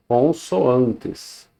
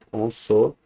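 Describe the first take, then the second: First: Said in the usual way. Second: "Consoantes" split as con-so-an-tes; "Consoantes" in pieces, with pauses between syllables. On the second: Shown as a demonstration. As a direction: break "Consoantes" into separate syllables. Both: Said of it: "são sílabas diferentes".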